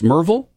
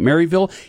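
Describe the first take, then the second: First: The name is clipped short into fewer syllables. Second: The name is said in full, syllable by syllable. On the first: The speaker has lived in the area all their life. The speaker calls it right. "It should be pronounced Merville if you've been here for your whole life" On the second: The speaker is new to the area. The speaker calls it wrong. "For those that just moved here, you're pronouncing it Maryville"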